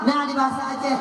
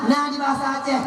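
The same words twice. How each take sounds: The two takes are said the same way.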